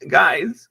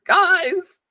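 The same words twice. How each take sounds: First: Said in the usual way. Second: High panicked yelp; panicked high call. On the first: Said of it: "repeated call". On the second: Acted.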